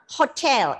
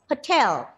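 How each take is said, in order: First: The first vowel is a full, unreduced vowel. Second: The first vowel is reduced to a schwa. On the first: The speaker calls it wrong. "it is not hotel" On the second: The speaker calls it right. "The unstressed syllables are reduced to the schwa"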